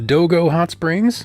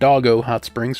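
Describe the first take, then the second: First: The name does not sound like 'doggo'. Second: The name sounds like the word 'doggo'.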